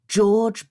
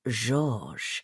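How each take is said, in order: First: The name is pronounced the English way. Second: The name is pronounced the French way. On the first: The speaker calls it wrong. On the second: The speaker calls it right.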